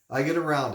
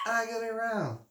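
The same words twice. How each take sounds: First: Said in the usual way. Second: Sung title. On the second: Pretend. Reading the album tracklist, then singing the title much higher. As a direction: croon the chorus line in falsetto.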